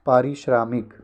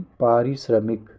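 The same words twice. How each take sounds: First: पारिश्रामिक with a long aa after shr; teacher showing the faulty long-aa पारिश्रामिक; wrong pronunciation. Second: पारिश्रमिक with a short a after shr; slow, careful पारिश्रमिक with short middle vowel; teacher modelling short-a पारिश्रमिक; correct pronunciation. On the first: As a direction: stretch the vowel in the middle of पारिश्रामिक. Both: Shown as a demonstration. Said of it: "पारिश्रामिक नहीं".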